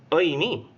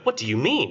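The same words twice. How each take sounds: First: It is said in a guilty, snivelling way. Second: It is said in a plain, normal way.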